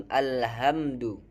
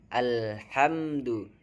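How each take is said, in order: Both takes have the same delivery.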